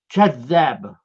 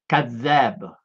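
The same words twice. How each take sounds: First: The word begins with a ch sound. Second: The word begins with a plain k sound. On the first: "Et eux prononcent kadzab" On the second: "tu dis"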